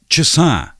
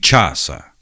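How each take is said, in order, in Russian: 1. Ударение на последнем слоге. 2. Ударение на первом слоге. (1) "ударение переходит с корня на окончание" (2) "Сравним. ... Ударение, да?"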